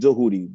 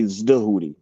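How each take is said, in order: First: The name begins without a z sound. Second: The name begins with a z sound. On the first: "we pronounce it Dahudi" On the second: "with the Z in front of it"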